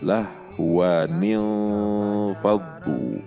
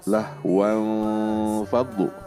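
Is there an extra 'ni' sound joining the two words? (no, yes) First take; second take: yes; no. First: A linking 'ni' sound joins the two words. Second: The words join directly with no linking vowel. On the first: The speaker calls it right. "Cara membacanya harusnya aulah wa, bukan wan, tapi wa. ... seperti itu" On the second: The speaker calls it wrong. "Tidak boleh dibaca lahwan fadlu"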